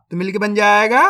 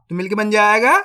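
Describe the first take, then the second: No difference in how they are said.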